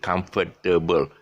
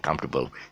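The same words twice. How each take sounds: First: The word is said with more syllables. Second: The word is said with fewer syllables. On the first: The speaker calls it wrong. "too long" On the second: The speaker calls it right. "Just say comfortable. That's how the British pronounce it"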